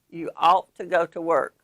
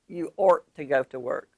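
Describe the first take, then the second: First: The word 'ought' rhymes with bought. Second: The word 'ought' rhymes with sort. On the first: The speaker calls it right. "Ought should rhyme with bought or brought or caught" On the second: The speaker calls it wrong.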